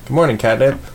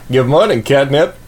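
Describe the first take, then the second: First: It is said in a dark, mysterious tone. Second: It is said in an obnoxious, jerky tone.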